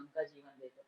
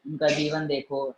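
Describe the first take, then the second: First: उनका जीवन देखो dropped to a near murmur; hushed repeat of उनका जीवन देखो; softly repeated. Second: Said in the usual way. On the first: Real, not acted. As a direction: repeat उनका जीवन देखो much softer, almost to yourself. Repeated exhortation, dropped low.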